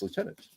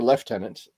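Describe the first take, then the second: First: It is said the American way, 'loo-tenant'. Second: It is said the British way, 'lef-tenant'.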